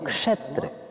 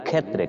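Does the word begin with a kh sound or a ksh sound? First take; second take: ksh; kh. First: The word begins with a k plus sh cluster. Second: The word begins with a plain kh sound. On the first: The speaker calls it right. "এটা ক মূর্ধন্য ষ এবং ও মিলে হয়েছে এই বর্ণটা, এই জন্য বলবো ক্ষ" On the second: The speaker calls it wrong. "আমরা যদি যখন বাংলায় বলি ক্ষেত্রে, কিন্তু ক্ষেত্রে হবে না"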